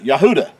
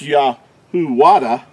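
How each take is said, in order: First: The name has no W sound in the middle. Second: The name has a W sound in the middle. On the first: The speaker calls it right. "Yahuda is how you would pronounce the tribe of Judah" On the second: The speaker calls it wrong. "it's not pronounced Yahuwada"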